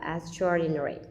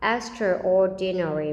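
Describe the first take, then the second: First: The 'extra' part is said quickly and reduced. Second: The 'extra' part is said fully and separately. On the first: The speaker calls it right. "mà mình đọc là extraordinary" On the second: The speaker calls it wrong. "mình không đọc hẳn là extraordinary"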